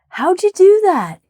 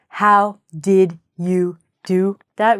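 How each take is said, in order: First: How and did blend into one short syllable. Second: Each word is said fully and separately. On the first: The speaker calls it right. "We say" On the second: The speaker calls it wrong. "We don't say"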